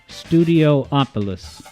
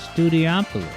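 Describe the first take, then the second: First: It is said with an extra syllable. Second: It is said without an extra syllable.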